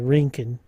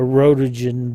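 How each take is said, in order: First: It is said like 'rinkin', with two syllables. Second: It is said like 'rotogen', with three syllables. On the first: This is the proper pronunciation. "I think the actual word for that is a Rinkin" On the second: This is the speaker's habitual pronunciation. "I've always called that, I called that a"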